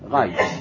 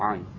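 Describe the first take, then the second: First: The word begins with a throaty gh sound. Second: The word begins directly with a vowel. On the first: This is likely the ancient pronunciation of the letter. "היו מבטאים את העין רעין" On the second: This is the common pronunciation of the letter. "ולא עין"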